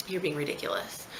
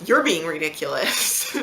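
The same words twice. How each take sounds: First: Retold husband's low-key dismissal, softer; quiet retort. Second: Louder, slowed-down retort; retold comeback. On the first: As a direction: say it softly, as a retold put-down. Husband's remark, thrown back after. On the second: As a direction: throw it back loudly, drawing it out. Throws husband's words back at him.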